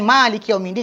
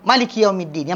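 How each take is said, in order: First: The first vowel of Maliki is drawn out long. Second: The first vowel of Maliki is kept short. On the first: "Yang panjang" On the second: "atau pendek"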